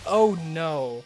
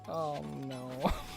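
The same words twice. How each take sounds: First: It is said in a non-Australian accent. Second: It is said in an Australian accent.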